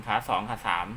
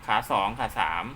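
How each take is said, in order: Both takes have the same delivery.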